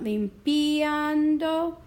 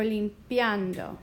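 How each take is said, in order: First: Limpiando with i and a apart, lim-pi-an-do; split limpiando. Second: Limpiando slow with ia as one glide, lim-pian-do; joined limpiando. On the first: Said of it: "decide if I want limpiando or". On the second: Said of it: "I kinda like 'em together". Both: Shown as a demonstration.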